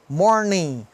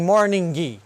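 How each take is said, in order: First: The word ends with no G or extra vowel. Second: The final G is sounded with an added 'i'. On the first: The speaker calls it right. "Não tem I nem G. É working, morning" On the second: The speaker calls it wrong. "nem morning"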